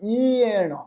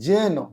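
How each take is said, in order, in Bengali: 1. শব্দটি 'y' ধ্বনি দিয়ে শুরু হয়। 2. শব্দটি 'j' ধ্বনি দিয়ে শুরু হয়। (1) "কিন্তু উচ্চারণ হয় ইয়েন" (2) "জেনটা আমরা বাংলায় উচ্চারণ করি"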